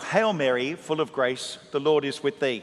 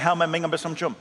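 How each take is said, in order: First: It is said slowly and clearly. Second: It is said fast and slurred.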